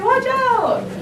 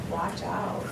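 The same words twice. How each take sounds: First: It is said loudly and urgently. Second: It is said flat, without energy. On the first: The speaker calls it right. "No, you would say" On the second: The speaker calls it wrong. "Would you go"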